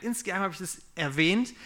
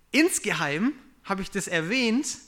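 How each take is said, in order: First: Said in the usual way. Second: Slow, louder, rising on "Insgeheim"; slow emphatic "Insgeheim hab ich das erwähnt"; stress on insgeheim. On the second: Shown as a demonstration. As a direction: drag out "Insgeheim" and lift it.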